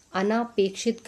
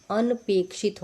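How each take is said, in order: First: अनापेक्षित with a long aa after n; wrong vowel demo. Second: अनपेक्षित with short "an" before "pekshit"; no long aa in अनपेक्षित; correct vowel demo. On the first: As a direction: say अनापेक्षित as "a-naa-pekshit". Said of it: "अनापेक्षित गलत है". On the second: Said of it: "क्योंकि अनपेक्षित होगा". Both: Shown as a demonstration.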